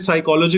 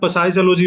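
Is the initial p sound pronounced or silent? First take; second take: silent; pronounced. First: The word begins with an s sound. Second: The word begins with a p sound.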